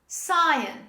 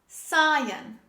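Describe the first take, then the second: The two takes are said the same way.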